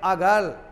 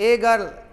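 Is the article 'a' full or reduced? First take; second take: reduced; full. First: The article is a short, reduced weak vowel. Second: The article is a full, stressed 'ay' sound. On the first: "वीक sound में बोलेंगे" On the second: "जोर देकर बोलेंगे"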